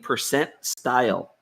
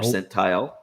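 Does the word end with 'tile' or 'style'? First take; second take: style; tile. First: The word ends with a 'style' sound. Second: The word ends with a plain 'tile' sound. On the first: The speaker calls it wrong. "He's doing a Philism. He's saying percent style" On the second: The speaker calls it right. "he's not saying percentile"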